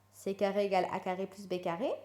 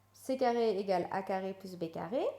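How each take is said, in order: Both takes have the same delivery.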